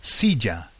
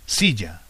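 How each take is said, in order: First: Silla said clearly as SEE-ya, falling; teacher modelling silla; Spanish silla. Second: Silla whispered, no voice; whispered repeat of Spanish silla. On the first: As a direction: model silla for the learner to repeat. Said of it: "is called". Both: Shown as a demonstration.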